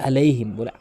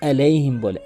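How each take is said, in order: No difference in how they are said.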